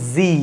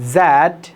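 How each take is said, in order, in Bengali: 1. এটি আমেরিকান উচ্চারণে বলা হয়েছে। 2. এটি অ-আমেরিকান উচ্চারণে বলা হয়েছে।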